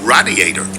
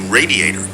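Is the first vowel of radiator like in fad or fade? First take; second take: fad; fade. First: The first A is short, as in fad. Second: The first A is long, as in fade. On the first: It is a radiator in a house. "I pronounce it with a short A, like in fad" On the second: It is a radiator in a car. "I pronounce it with a long A sound, like in fade"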